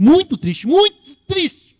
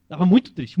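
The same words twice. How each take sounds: First: Building to a high, loud, slow mock wail; mock sad. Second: Said in the usual way. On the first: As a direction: ham up the sadness. Sermon, repeats to mock Jonas.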